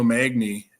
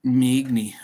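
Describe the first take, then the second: First: Magny said MAG-nee, the a flat as in cat; Magny with a Wisconsin flat short a; Wisconsin accent. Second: Magny said MAY-nee, first vowel like the a in may; Magny with a long ay sound, as corrected; corrected pronunciation. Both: Real, not acted. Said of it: "is that my Wisconsin accent coming out".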